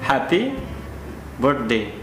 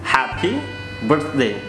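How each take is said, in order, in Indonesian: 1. 'Birthday' terdengar seperti 'bird day', dengan bunyi d. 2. 'Birthday' punya bunyi th yang jelas di tengah. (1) "Itu maknanya selamat hari burung" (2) "Bukan selamat hari burung atau hari duri-durian"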